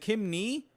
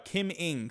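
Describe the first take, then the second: First: The surname sounds like "nee". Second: The surname sounds like "ing". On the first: The speaker calls it wrong. "I'm so sorry if I'm pronouncing that wrong" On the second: The speaker calls it right. "Oh, it's Ing. Thank you"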